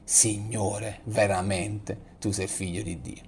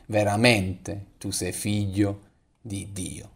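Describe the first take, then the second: First: Much softer, slower, prayerful; in adoration. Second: Said in the usual way. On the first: Shown as a demonstration. Pastor leads the congregation in adoration, soft prayer. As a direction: breathe it out as a quiet act of worship. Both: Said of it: "potendo dire anche noi in adorazione".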